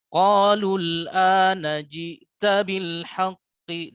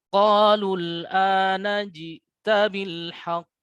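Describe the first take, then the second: First: The q flows straight into a following vowel. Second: It stops on a bouncing, echoing final q. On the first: "tidak ada teknik qalqalah seperti itu" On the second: "ada jeda sedikit"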